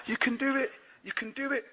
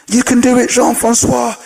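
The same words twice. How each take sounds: First: Very faint, high far-away cheer; distant crowd echo. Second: High-pitched acted cheer; rally him like a believing crowd. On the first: Acted. Crowd stretching back for miles, faint distant cheering. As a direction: let the cheer fade into the distance. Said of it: "It went back for miles". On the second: Crowd encouraging Jean-Francois on the rope, acted cheering.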